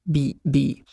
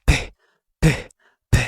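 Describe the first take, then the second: First: بي as a voiced "bee" with no air puff. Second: ب as an explosive unvoiced "p"; strong-puff P. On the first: Teacher contrasting B with P, voiced "bee". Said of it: "مش شبه البي اللي هناك". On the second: Teacher contrasting P with B, sharp air bursts. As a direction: burst each ب with hard air from the mouth. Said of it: "طلع هوا جامد". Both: Shown as a demonstration.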